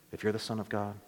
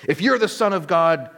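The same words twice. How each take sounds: First: "If you're the Son of God" said hushed and much softer, low; a sly, hushed tempting whisper-like line; devil's quiet taunt. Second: Crowd's mocking taunt. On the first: Retold or imitated. The devil tempting Jesus, soft and low. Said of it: "Remember the devil saying that?". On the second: A narrator's reading. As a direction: throw it up at him as a jeer. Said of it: "derided him".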